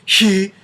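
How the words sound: The vowel starts with a breathy rush of air. "They're not blowing apart like"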